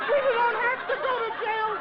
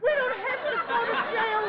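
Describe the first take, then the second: First: High, loud giddy squeal; louder overjoyed. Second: High giddy squeal; overjoyed. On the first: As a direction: push it louder with glee. Repeated louder. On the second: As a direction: squeal it with relief. Repeated in joy. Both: Acted.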